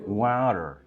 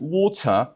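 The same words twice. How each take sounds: First: The middle consonant is a soft d. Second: The middle consonant is a crisp t.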